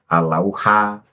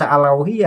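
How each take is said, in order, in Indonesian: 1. Kata ini berakhir dengan vokal a. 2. Kata ini berakhir dengan vokal i. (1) "ini yang benar al-lauha" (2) "kalau pertama dibaca al-lauhi"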